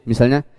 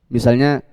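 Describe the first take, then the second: Both takes have the same delivery.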